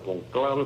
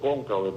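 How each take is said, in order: First: The word is pronounced the Italian way. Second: The word is pronounced the Spanish way. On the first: "así que se pronuncia en italiano" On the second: "en español se dice cónclave"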